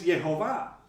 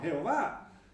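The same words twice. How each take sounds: First: The name is said with Hebrew pronunciation. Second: The name is said with Spanish pronunciation. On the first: "en hebreo es Jehová" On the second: "En castellano decimos Jehová"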